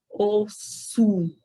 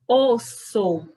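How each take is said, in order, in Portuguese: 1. A vogal final soa como 'u'. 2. A vogal final soa como 'o'. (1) "o O, eu pronunciei com som de U" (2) "na língua espanhola, sempre vai ser O"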